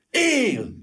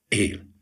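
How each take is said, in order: First: High, drawn-out joyful exclamation; thrilled outburst at sudden hope; electrified cry. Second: Subdued, deflated single word; crushed. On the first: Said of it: "kiáltott fel Gyuri felvillanyozva". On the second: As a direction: say it as the hope drains away. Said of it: "de csak hamar lesújtotta". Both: A narrator's reading.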